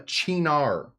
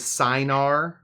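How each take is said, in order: First: The word begins with a ch sound. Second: The word begins with an s sound. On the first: The speaker calls it right. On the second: The speaker calls it wrong.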